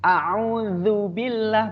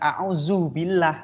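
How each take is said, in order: First: The middle consonant is a soft th sound. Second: The middle consonant is a buzzing z sound. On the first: The speaker calls it right. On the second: The speaker calls it wrong.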